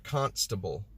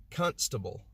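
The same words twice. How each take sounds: First: Said in the usual way. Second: The wrong KUN-stuh-bul for "constable"; old mispronunciation. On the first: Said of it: "instead of constable". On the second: Shown as a demonstration. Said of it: "I used to say constable".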